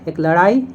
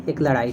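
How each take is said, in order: First: "लड़ाई" said at normal pitch, rising at its end; first sense. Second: "लड़ाई" said lower and softer, falling; second sense. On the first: Teacher showing the first meaning of "लड़ाई", rising. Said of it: "एक लड़ाई तो है वो आँख लड़ाना". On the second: Teacher contrasting the second meaning of "लड़ाई", low and falling. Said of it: "दूसरी बात है वो है लड़ाई झगड़ा वाला". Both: Shown as a demonstration.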